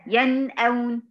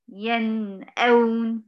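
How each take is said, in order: First: "ينأون" flowing with no gap after the nun; smooth correct "ينأون"; correct joined reading. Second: "ينأون" with a gap after the nun; slow faulty recitation of "ينأون"; wrong pause demo. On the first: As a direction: join the nun straight into the hamza in "ينأون". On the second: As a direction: break "ينأون" wrongly, very slowly. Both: Shown as a demonstration. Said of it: "طب ليه عملت الفاصل ده؟".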